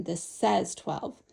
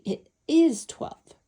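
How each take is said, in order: First: "says" stressed, slow and falling. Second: "is" stressed, slow and falling; weight on "is", drawn out. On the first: Teacher contrasting symbol and quantity, stressing says slowly. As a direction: lean on "says", taking it slowly. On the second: Teacher contrasting symbol and quantity, stressing is slowly. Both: Shown as a demonstration. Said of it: "we need to emphasize that this says eleven".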